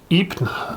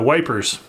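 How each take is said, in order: First: The name is said like 'ee-pruh'. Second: The name is said like 'wipers'. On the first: This is the proper local name. "I think Ypres is the proper pronunciation" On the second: This is how British soldiers said it then. "as the British said, the Brits used to say back then"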